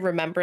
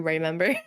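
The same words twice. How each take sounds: First: The word is said in its ordinary form. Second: The first syllable is altered into a pun. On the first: "I never say remember anymore" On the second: "I say the Ray pun version of words"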